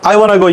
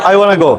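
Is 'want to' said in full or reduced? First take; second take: reduced; reduced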